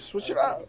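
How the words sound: It is said in an imitated rapper's voice.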